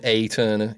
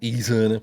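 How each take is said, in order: First: The first vowel sounds like 'ay'. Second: The first vowel sounds like 'ee'. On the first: "It could be an A" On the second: "it could be an E"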